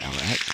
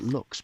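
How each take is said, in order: First: The name is spoken as two separate letters. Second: The name is spoken as one single syllable. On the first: The speaker calls it wrong. "it makes you want to say L X" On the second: The speaker calls it right. "they want us to pronounce it Lux"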